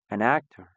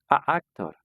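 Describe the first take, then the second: First: An n sound links both words smoothly. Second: Two vowels meet with a break between words. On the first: The speaker calls it right. "Nunca hago ningún stop en medio de las dos palabras" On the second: The speaker calls it wrong. "Suena bastante mal y suena gracioso a la vez"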